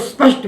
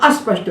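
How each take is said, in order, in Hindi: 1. शब्द सीधे 'sp' से शुरू होता है, कोई स्वर नहीं। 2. 'sp' से पहले एक अतिरिक्त 'a' स्वर जोड़ा जाता है। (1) "उसको स्पष्ट बोलना है" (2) "ना अस्पष्ट बोलना है"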